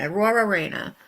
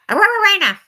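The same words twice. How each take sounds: First: It is said at normal speed. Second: It is said fast, like a dog yapping.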